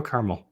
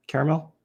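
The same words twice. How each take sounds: First: "caramel" said as CAR-mul; two-syllable caramel. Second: "Caramel" as CARE-uh-mel, questioning rise; three-syllable caramel. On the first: Streamer unsure of his own habit, "caramel" as CAR-mul. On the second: Streamer unsure of his own habit, questioning "Caramel" as CARE-uh-mel. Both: Shown as a demonstration. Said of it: "don't know what I actually say".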